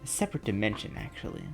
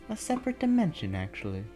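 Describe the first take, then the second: First: The line is delivered in a curt, rude tone. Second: The line is delivered in a softer, polite tone.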